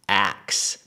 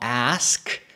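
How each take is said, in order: First: The word ends with a k then s sound. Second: The word ends with an s then k sound. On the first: "it's ax. The S and the K actually flip" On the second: "in standard modern English, we say ask"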